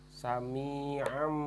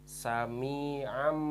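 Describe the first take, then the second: No difference in how they are said.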